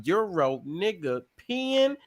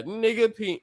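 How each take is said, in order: First: "Euro, nigga, pin" split into three parts; word by word. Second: "nigga, pin" said as two separate words. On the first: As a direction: break "Euro, nigga, pin" into separate words. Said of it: "get your word correctly every time". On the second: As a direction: break "nigga, pin" apart. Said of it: "That's how I switched that". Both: Shown as a demonstration.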